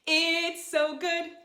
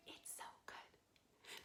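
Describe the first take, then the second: First: Sung high and slow as the lead line. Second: Soft whispered echo of the line. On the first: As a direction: sing it for them to echo. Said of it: "you'll repeat it back to me". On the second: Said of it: "like an echo". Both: Shown as a demonstration.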